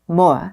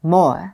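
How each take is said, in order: First: It is said British-style, short, with the R dropped. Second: It is said British-style, short, with the R dropped.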